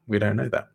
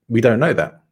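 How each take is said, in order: First: Softer echo of the same words; quieter repeat. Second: Said in the usual way. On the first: Real, not acted. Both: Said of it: "repeated for emphasis".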